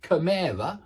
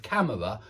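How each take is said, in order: First: "chimera" for camera, stress on the middle syllable; learner's mistake, "chimera" stressed second syllable; misplaced stress. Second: Said in the usual way. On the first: Shown as a demonstration. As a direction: push the stress onto MER in "chimera". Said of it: "saying things like chimera instead of camera". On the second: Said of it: "chimera instead of camera".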